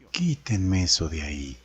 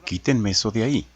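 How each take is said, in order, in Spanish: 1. Se dice con un tono impotente y sumiso. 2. Se dice con un tono natural y sencillo. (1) "o de impotencia o sumisión" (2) "que puede ser natural"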